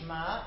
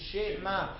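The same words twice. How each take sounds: First: The sh runs straight into the m. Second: A short vowel sounds between sh and m. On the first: The speaker calls it wrong. "It's not Shema" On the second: The speaker calls it right. "it is Shema"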